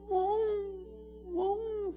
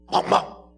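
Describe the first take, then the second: First: The bark sounds soft and pleading. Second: The bark sounds sharp and aggressive. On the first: The dog sheepishly asks for more food. "또 달라 그럴 때는 멍멍 또 이렇게 달라요" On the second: The dog protests that its food was taken. "자기 그 먹는 거 밥그릇 뺐을 때는 멍멍 이래 막"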